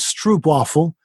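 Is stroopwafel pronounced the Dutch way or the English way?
English. The word is pronounced with English sounds. "you'll probably read it as stroopwafel"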